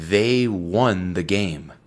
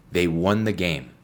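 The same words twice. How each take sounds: First: "They won the game" said slowly, word by word; teacher reading the example slowly; slow model reading. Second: Said in the usual way. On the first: Shown as a demonstration. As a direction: read it slowly for the learner. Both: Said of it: "Por ejemplo".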